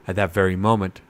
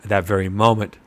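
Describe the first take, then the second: No difference in how they are said.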